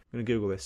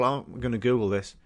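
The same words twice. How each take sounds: First: Softer, under the breath; muttered to himself. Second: Said in the usual way. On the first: Real, not acted. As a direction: mumble it aside.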